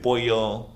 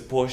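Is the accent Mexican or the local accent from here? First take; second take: Mexican; local. First: It is said with a Mexican Spanish accent. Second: It is said with the local Spanish accent.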